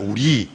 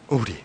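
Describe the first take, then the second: First: The stress is on the second syllable. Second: The stress is on the first syllable. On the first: "액센터가 앞에 오지 않고 아, 참 우리 할 때 뒤에 있잖아요" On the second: "근데 액센터가 앞에 오면 어떻게 됩니까?"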